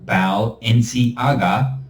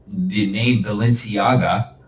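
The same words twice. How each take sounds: First: Balenciaga split slowly as Bao-lenci-aga; syllables split. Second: Said in the usual way. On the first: Shown as a demonstration. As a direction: say Balenciaga slow in three parts. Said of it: "break that down into three syllables". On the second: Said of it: "three syllables".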